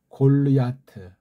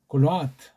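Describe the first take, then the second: First: The last part is said with a 'ya' sound. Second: The last part is said with a plain 'a' sound. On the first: The speaker calls it wrong. "이걸 보통 골르야라고 하잖아요" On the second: The speaker calls it right. "야트가 아니고 아트입니다"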